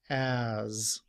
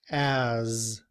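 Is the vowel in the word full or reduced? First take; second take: full; full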